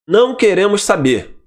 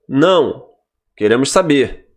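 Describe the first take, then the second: First: There is no pause after 'não'. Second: There is a pause after 'não'.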